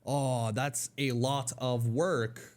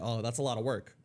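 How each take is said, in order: First: The word of is pronounced fully. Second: The word of shrinks into a weak vowel. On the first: The speaker calls it wrong. "they would sound a little goofy" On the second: The speaker calls it right. "they would say"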